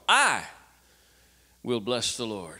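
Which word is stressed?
I. The stress is on "I".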